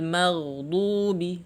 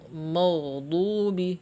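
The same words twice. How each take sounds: First: The m syllable sounds thin and light. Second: The m syllable sounds thick and heavy. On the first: The speaker calls it right. "Harus tipis" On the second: The speaker calls it wrong. "salah ya"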